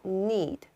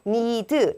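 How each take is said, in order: First: The word ends cleanly on the final consonant. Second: An extra vowel sound follows the final consonant. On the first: The speaker calls it right. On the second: The speaker calls it wrong.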